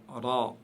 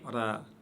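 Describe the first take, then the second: First: The r sound is heavy and deep. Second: The r sound is light and thin. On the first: The speaker calls it right. "prononcez-le toujours de manière lourde" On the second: The speaker calls it wrong. "et non pas ra"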